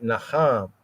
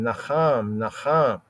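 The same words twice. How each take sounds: First: Said in the usual way. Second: Naham said as nachám with a rasped throaty ch; guttural Hebrew ch. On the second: Shown as a demonstration. Teacher showing the Hebrew sound of naham, guttural ch. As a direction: scrape the h in naham from the back of the throat. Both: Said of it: "in the use of naham".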